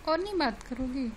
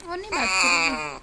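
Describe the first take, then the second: First: Said in the usual way. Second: Lower, louder coaxing question. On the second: Real, not acted. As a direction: press her gently but firmly to talk, low and loud. Father coaxing silent daughter on call.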